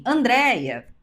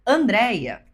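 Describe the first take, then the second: First: Lightly acted call, raised in pitch; stranger calling out. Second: Louder acted call of a name; husband calling out. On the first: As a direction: call a name across the street. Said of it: "alguém diz assim". (chamado de um estranho na rua, um pouco mais agudo) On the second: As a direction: call your wife through a crowd. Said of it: "se o meu marido, no meio de uma multidão, disser". (chamado do marido no meio da multidão, mais forte)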